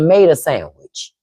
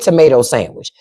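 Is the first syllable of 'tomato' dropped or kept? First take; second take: dropped; kept. First: The first syllable of tomato is dropped. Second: The first syllable of tomato is kept. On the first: The speaker calls it right. "we got to say it right" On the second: The speaker calls it wrong. "We never said tomato sandwich"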